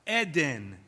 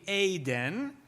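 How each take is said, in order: First: Both vowels have the same sound. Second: The first vowel differs from the second vowel. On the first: This is the modern Israeli pronunciation. "It's two vowels the same" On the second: This is the biblical pronunciation. "a proper biblical pronunciation of that word"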